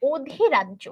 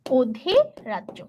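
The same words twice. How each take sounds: First: Said in the usual way. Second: অধিরাজ্য drawn out very slowly for dictation; slow repeat. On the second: Shown as a demonstration. Teacher repeating the term so the class can write it, slow. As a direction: stretch অধিরাজ্য syllable by syllable. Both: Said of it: "এটা কি?".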